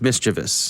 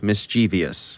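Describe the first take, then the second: First: It has three syllables: mis-chuh-vus. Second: It has an extra syllable: mis-chee-vee-us. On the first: The speaker calls it right. "It's mischievous" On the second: The speaker calls it wrong. "there is no such word as mischievous"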